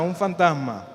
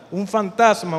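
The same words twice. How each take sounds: First: Said in the usual way. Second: Louder mock cry of fright; retold frightened cry. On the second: Disciples to the sea figure, louder mock frightened cry. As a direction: shout it like scared disciples seeing a ghost. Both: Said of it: "Llenos de miedo gritaron".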